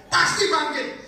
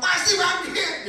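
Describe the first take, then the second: First: Much higher, loud insistence; Marta insisting. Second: Much higher, very slow and loud; Marta drawling. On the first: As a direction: insist loudly, high. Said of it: "Marta berkali-kali ngomong". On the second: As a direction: drag out "Pasti bangkit" high and slow. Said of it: "Marta ngomong". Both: Retold or imitated.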